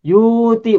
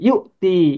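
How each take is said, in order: First: A long vowel replaces the glottal stop. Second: A glottal stop breaks the word in two. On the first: The speaker calls it wrong. "bukan begitu" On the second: The speaker calls it right. "tapi yu'ti"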